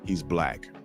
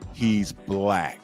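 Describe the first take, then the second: First: It is said plainly, without extra force. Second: It is said loudly and forcefully.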